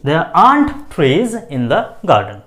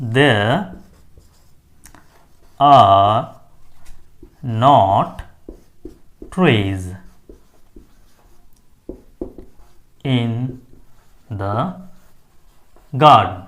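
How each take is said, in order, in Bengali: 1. Are not সংক্ষেপ হয়ে একটা শব্দ হয়, aren't। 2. Are not দুটো আলাদা পূর্ণ শব্দ হিসেবে বলা হয়।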